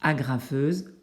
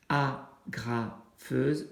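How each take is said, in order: First: Said in the usual way. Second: Agrafeuse said slowly, syllable by syllable: a-gra-feuse; syllables split slowly. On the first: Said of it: "en frappant les syllabes". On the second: Shown as a demonstration. Parent showing the child how to count syllables, slow and split. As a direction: tap out each syllable of agrafeuse. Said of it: "en frappant les syllabes au moment où on les dit".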